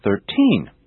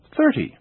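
First: "Thirteen" with the second syllable stressed; stress on last syllable. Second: "thirty" with a high-pitched first syllable, falling away; stress on first syllable. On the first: Teacher showing which syllable is stressed, "Thirteen" stressed on TEEN. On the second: Teacher showing which syllable is stressed, "thirty" stressed on THIR. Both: Shown as a demonstration. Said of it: "notice the different syllables being stressed".

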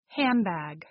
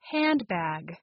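First: "handbag" said as "hambag"; assimilated "handbag". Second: Said in the usual way. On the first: Shown as a demonstration. Teacher giving an example of assimilation, "handbag" as hambag. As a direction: drop the d in "handbag" and turn the n into m. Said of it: "The sound becomes M". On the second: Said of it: "why do native speakers change or omit".

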